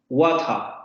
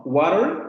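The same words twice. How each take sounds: First: "Water" with a clear t and no r, falling; British water. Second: "Water" with a flapped t and the r sounded, rising; American water. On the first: Teacher labels this "Water" as British English, clear t. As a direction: say "Water" as "wata", no r. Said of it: "inglés británico". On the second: Teacher labels this "Water" as North American English, flapped t. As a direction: say "Water" like "wader". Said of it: "inglés norteamericano". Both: Shown as a demonstration.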